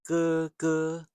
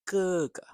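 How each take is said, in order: First: The second syllable is high and level. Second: The second syllable is short and light. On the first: "So it's not ... although that's fine too" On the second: "the second syllable can be light, more like"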